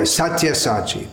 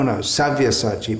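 First: The second syllable begins with a t sound. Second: The second syllable begins with a v sound. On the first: The speaker calls it wrong. "oh yeah, Satyasachi. But no" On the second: The speaker calls it right. "But no, Savyasachi"

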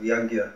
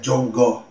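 First: It starts with a y sound and ends in a. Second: It starts with a j sound and ends in o. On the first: This is the standard Sanskrit pronunciation. "instead of Yagya" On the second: This is the local Bengali pronunciation. "They'll say Jongo"

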